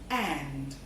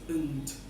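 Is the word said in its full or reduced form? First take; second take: full; reduced. First: The word is said fully with its clear vowel. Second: The word is reduced, with its vowel weakened.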